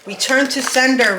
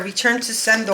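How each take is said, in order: First: Higher, louder return to sender, like a spell; commanding banishment. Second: Said in the usual way. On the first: Acted. Reader banishing the witches' negativity with a loud command. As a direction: cast it back at them with full force.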